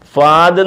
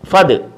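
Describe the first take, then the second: First: The vowel after 'f' is drawn out long. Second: The vowel after 'f' is kept short. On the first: The speaker calls it wrong. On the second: The speaker calls it right.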